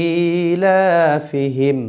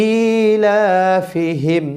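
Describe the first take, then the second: No difference in how they are said.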